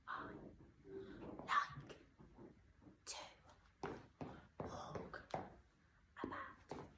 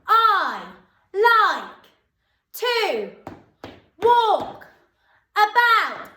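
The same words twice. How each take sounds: First: It is said very quietly. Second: It is shouted very loudly.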